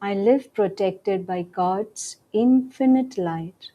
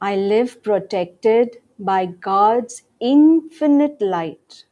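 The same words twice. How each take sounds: First: It is said in a soft voice. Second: It is said in a normal voice. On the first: "In a softer voice now" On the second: "In a regular voice"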